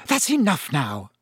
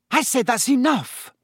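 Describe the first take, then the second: First: Said in the usual way. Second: Exasperated second warning; stern repeat. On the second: A narrator's reading. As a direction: shut the twins down for good.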